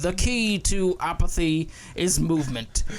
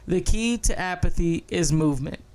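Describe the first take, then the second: First: It is said in an odd put-on character voice. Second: It is said in the speaker's natural voice. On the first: "Maybe I'll do it in the Box Trolls voice" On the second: "I'll do my regular"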